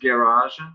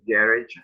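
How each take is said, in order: First: It is said with an American pronunciation. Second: It is said with a British pronunciation. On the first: "the American pronunciation is garage" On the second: "the uh, British pronunciation is garage"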